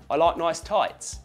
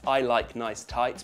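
First: It is said in a Cockney accent. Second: It is said in a standard British accent. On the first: "becomes I like nice tights" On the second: "That's I like nice tights becomes"

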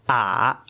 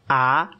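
First: The pitch dips low, then rises. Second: The pitch rises from middle to high.

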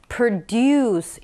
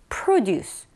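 First: The stress is on the second syllable. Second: The stress is on the first syllable. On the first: It is a verb meaning to make or produce. "produce 이렇게 do의 강세가 있다라는 거 기억하세요" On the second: It is a noun meaning farm goods or products. "이 do의 강세가 아니라 앞에 produce 이렇게 그냥 앞에 강세가 있어요"

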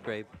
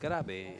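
First: The name is said the local-region way. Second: The name is said the home-region way. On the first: This is how it is said in this region. "In this part of the country, it's Grabe" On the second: This is how it is said where he comes from. "in my part of the country, my name is pronounced Grabe"

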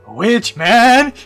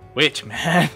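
First: It is said loudly and energetically. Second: It is said quietly and flatly.

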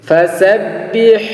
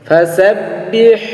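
No difference in how they are said.

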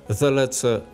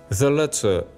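The two takes are said the same way.

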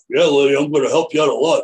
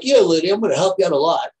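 First: The voice is very deep. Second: The voice is not deep, higher.

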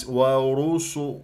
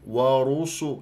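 No difference in how they are said.

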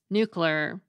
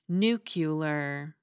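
First: It is squeezed into two syllables. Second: It has three syllables, ending like muscular. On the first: "pronounced it with two syllables" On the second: "just like the mispronunciation nuclear"

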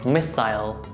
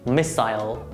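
First: It is said with British pronunciation. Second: The same.

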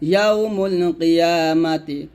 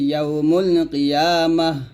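First: The last word ends with a -ti syllable. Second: The last word ends with an h sound. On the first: The reading continues without stopping. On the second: The reader stops at this word.

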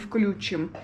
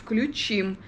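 First: The stress is on the first syllable. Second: The stress is on the last syllable. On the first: The speaker calls it wrong. "а не включим" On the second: The speaker calls it right. "Правильно говорить включим, потому что ударение включить на последний слог"

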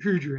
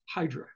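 First: The name is said with Greek pronunciation. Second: The name is said with English pronunciation.

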